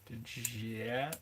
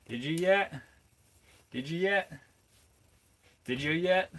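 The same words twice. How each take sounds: First: Said in the usual way. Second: "Did you yet" in a higher, louder Appalachian accent; hammed-up Appalachian "Did you yet", higher and louder; mock Appalachian accent. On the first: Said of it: "Did you yet? (repeated in accent)". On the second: Shown as a demonstration. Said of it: "my Appalachian accent".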